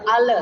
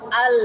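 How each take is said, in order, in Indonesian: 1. Bunyi l dilepas dengan pantulan. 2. Bunyi l ditahan halus, tidak dipantulkan. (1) "Lam itu tidak boleh kita pantulkan. Al tidak boleh" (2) "Sifat lam itu adalah sifat bainiyah tawassul"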